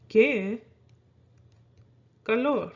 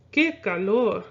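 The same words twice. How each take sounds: First: "Qué", long pause, "calor"; slow teaching demo, "Qué ... calor"; word by word. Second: Said in the usual way. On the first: Shown as a demonstration. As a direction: say "Qué" and "calor" as separate words for learners.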